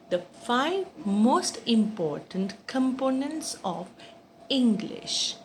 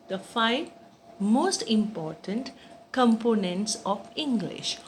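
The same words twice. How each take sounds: The two takes are said the same way.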